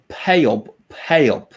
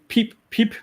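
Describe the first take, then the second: First: It is said in a Skåne accent. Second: It is said in a Danish accent. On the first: "in Skåne they would say" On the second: "in Denmark they say"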